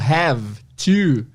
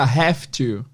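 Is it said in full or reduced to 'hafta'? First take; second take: full; reduced. First: It is said in full with a v sound. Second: It is reduced, with an f sound: hafta. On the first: "o have to" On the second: "contraído fica have to... tem um som de F aí"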